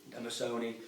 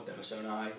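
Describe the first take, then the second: First: Denisoni, final i as in "ski"; Denisoni ending "-nee". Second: Denisoni, final i as in "eye"; Denisoni ending "-nigh". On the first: Fishkeeper offering viewers one pronunciation, Denisoni ending in "nee". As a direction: say Denisoni with the last syllable as "nee". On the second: Fishkeeper offering viewers the other pronunciation, Denisoni ending in "nigh". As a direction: say Denisoni with the last syllable as "nigh". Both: Shown as a demonstration. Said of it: "whichever way you wanna pronounce it".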